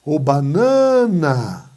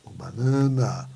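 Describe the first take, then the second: First: Loud call with middle NA of "banana" held long; stretched stressed syllable. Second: Low, slow "banana" with middle NA stretched; drawn-out stressed syllable. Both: Shown as a demonstration. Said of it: "é a penúltima sílaba que é mais forte".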